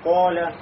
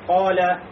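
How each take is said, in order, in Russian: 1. Гласный огубленный, губы вытянуты вперёд. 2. Гласный открытый, губы не округлены. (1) "не говорим поля, то есть не делаем, да, губы кольцом" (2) "говорим, да, поля"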